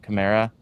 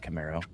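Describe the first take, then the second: First: The name ends with an 'ah' sound. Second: The name ends with an 'oh' sound. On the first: The speaker calls it right. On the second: The speaker calls it wrong. "not Camaro"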